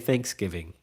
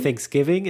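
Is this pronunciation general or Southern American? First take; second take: Southern; general. First: It is said the Southern American way. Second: It is said the common general American way. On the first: "I think it's more of a Southern thing to say Thanksgiving" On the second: "Some people say"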